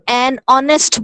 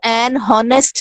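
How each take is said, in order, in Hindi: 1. Honest एक स्वर से शुरू होता है, कोई h ध्वनि नहीं है। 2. Honest एक सुनाई देने वाली h ध्वनि से शुरू होता है। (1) "एन ऑनेस्ट बोलेंगे" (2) "इसको एन हॉनेस्ट नहीं बोलेंगे"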